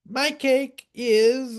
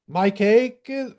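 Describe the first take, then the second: First: It is said in a put-on character voice. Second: It is said in the speaker's ordinary voice.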